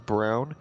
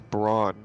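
First: The vowel sounds like the one in 'down'. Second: The vowel sounds like the one in 'dawn'. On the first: "you guys call him Brown" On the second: "When I read it, I pronounce it as Brawn"

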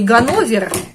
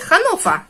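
First: Russian-style, with a G sound and final -ver. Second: German-style, with an H sound and final -fa. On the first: Germans would not understand this form. The speaker calls it wrong. "если вы скажете в Германии Ганновер, никто вас не поймет" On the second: Germans understand this form. The speaker calls it right. "Надо говорить Ханнофа"

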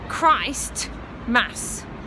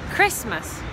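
First: The t is pronounced, as two words 'Christ Mass'. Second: The t is dropped, sounding like 'Chris-mas'. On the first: It names a mass for Christ. "if you look at the word Christ Mass" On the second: It is the usual name of the holiday. "Chris. Who's Chris?"

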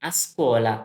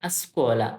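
The two takes are said the same way.

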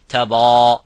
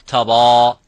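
The two takes are said the same way.

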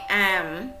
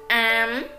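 First: The syllable has a dipping tone. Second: The syllable has a high rising tone. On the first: "hỏi" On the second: "sắc"

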